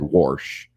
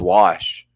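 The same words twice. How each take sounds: First: The word is said with an R sound. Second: The word is said without an R sound. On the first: The speaker calls it wrong. "my grandma said" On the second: The speaker calls it right. "it's wash"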